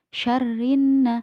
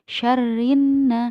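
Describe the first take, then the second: The two takes are said the same way.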